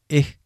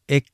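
First: The word ends in a breathy h sound. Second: The word ends in a barely audible k stop. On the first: "カラフト方言ではエッとなります" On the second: "聞こえないクの音で終わる"

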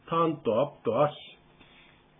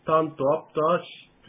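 First: The sentence is spoken slowly and calmly. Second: The sentence is spoken quickly. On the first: The speaker calls it right. "ちょっとゆっくりめにやってみますね" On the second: The speaker calls it wrong. "さっきあの早口だったので"

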